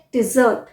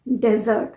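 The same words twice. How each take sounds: First: डिजर्ट with short "di", weight on "zert"; contrasting pronunciation. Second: डेजर्ट opening on "de"; contrasting pronunciation. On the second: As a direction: say डेजर्ट as "DEZ-ert". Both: Shown as a demonstration. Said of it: "इसमें भी काफ़ी confusion हो जाता है".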